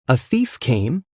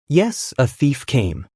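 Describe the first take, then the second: First: "A thief came?" with a rise at the end; questioning echo. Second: Slow "Yes, a thief came." falling at the end; slow confirmation. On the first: Dad hears of the break-in from Sue, questioning echo. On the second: Son answers his dad's question, slow confirmation. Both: A narrator's reading.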